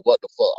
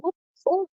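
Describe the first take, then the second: First: Said in the usual way. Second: A much higher, startled "What the fuck?" with a rising end; high-pitched shocked "What the fuck?", softer; shocked disbelief. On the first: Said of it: "I literally was like". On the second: Retold or imitated. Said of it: "And I'm like".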